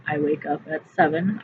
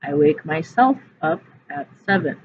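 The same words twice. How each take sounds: First: Said in the usual way. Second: Myself pressed hard and loud; teacher stressing myself. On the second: Shown as a demonstration. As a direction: lean on the word myself. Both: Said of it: "I'm doing this to myself in this phrase".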